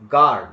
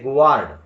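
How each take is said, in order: First: No glide follows the G. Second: A W-like glide follows the G. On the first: The speaker calls it right. "guard is right pronunciation" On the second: The speaker calls it wrong. "Don't say ಗುವಾರ್ಡ್"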